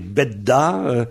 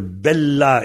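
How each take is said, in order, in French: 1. La consonne du milieu est un son D. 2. La consonne du milieu est un son L. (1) "les deux L sont devenus deux D" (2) "les deux L sont devenus deux D"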